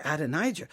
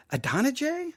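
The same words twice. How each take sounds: First: Adonijah as ad-uh-NIGH-juh, low and soft; tentative pronunciation. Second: Adonijah as uh-DON-uh-jay, soft with a high rise; questioned pronunciation. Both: Shown as a demonstration. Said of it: "questioning my own pronunciation".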